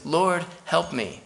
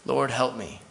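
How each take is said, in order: First: Slow, raised plea to the Lord; slow pleading prayer. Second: Plain, settled, sincere plea; quiet sincere prayer. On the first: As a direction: beg slowly, voice lifted. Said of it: "and says". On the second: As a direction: say it simply, as your own prayer. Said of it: "that's the best prayer". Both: Retold or imitated.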